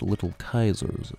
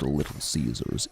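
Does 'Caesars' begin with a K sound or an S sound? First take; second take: K sound; S sound. First: The name begins with a K sound. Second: The name begins with an S sound. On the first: The speaker calls it right. "It should be pronounced Little Kaiser's" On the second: The speaker calls it wrong. "it should not be pronounced Little Caesars"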